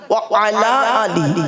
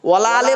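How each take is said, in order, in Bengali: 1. wa আর ala আলাদা থাকে, শেষ হয় ali-তে। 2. প্রথম শব্দ দুটো মিলে wala হয়, শেষ হয় ale-তে। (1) "আছেটা কি?" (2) "ওয়ালা আলে বলে কোনো শব্দ নেই"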